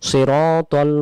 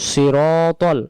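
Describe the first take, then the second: No difference in how they are said.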